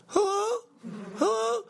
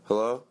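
First: Put-on very high falsetto girl voice; girl caller. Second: Said in the usual way. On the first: Girl calling in to the show, high mock falsetto. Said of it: "the girl calls in, she goes". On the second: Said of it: "not much different than my voice".

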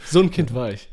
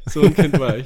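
First: Said in the usual way. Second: A hammed-up excited child, louder; mock excited kid. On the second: Shown as a demonstration. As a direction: act out the hyper child you were. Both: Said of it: "repeats line, louder and far".

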